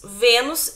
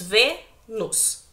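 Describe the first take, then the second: First: Said in the usual way. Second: "Vênus" slowly split into Vê, nus with a pause; syllable by syllable. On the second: Shown as a demonstration. Teacher dividing a word for the class, syllable by syllable. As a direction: break "Vênus" into two separate syllables. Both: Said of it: "se nós dividirmos Vênus em sílaba".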